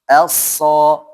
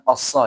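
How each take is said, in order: First: The first vowel is light before the heavy s. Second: The first vowel is already heavy and dark. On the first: The speaker calls it right. "a dulu, hamzah dulu ya, baru shadnya" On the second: The speaker calls it wrong. "Jangan assa ya... belum ke shadnya sudah tebal"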